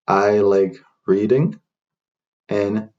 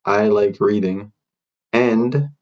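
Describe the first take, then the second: No difference in how they are said.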